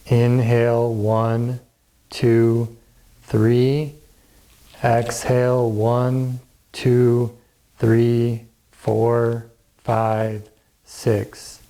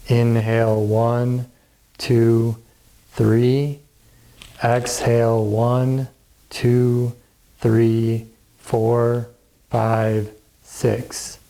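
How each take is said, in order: Both takes have the same delivery.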